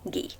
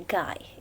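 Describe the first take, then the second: First: The name is said with a French pronunciation. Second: The name is said with an English pronunciation. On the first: The speaker calls it right. "since he is a French writer ... instead we say Guy" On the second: The speaker calls it wrong. "we don't say Guy"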